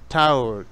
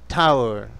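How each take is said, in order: No difference in how they are said.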